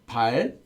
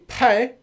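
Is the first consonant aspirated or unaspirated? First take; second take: unaspirated; aspirated. First: The first consonant has no strong puff of air. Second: The first consonant has a strong puff of air. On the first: It sounds like a swear word. The speaker calls it wrong. "which sounds similar, ... it will be the swear" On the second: It means eight. The speaker calls it right. "So if you say 팔, you'll be okay"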